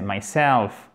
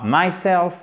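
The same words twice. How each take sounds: First: Myself, slow, leaning on a falling SELF; stress on SELF. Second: Myself with MY hit harder and higher than self; wrong first-syllable stress. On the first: Teacher correcting the mistake, myself stressed on SELF. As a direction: stress the second syllable: mySELF. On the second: Teacher showing learners the mistake, myself stressed on MY. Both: Shown as a demonstration. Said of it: "il est toujours sur le self".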